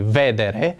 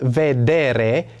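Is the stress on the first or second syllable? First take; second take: first; second. First: The stress is on the first syllable. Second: The stress is on the second syllable. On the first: The speaker calls it wrong. "nu cred că spune nimeni vedere" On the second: The speaker calls it right. "care nu pune probleme de accent"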